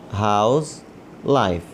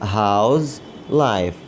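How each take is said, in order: No difference in how they are said.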